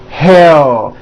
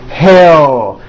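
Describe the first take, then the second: The two takes are said the same way.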